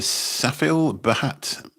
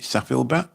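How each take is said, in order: First: The H in the surname is pronounced. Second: The H in the surname is silent.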